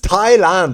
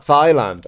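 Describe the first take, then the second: First: The word starts with a t sound. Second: The word starts with a th sound. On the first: The speaker calls it right. "But it's Thailand" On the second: The speaker calls it wrong. "It's not Thailand"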